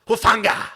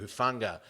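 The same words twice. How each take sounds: First: The name is said with strong, dramatic emphasis. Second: The name is said flatly, without emphasis. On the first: The speaker calls it right. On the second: The speaker calls it wrong. "I was expecting a much more profound pronunciation of Hufanga"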